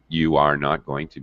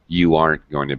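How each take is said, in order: First: Every word is said in full, uncontracted. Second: Are and not merge into aren't. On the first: "I can use full form" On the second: "We usually contract uh, the negative not"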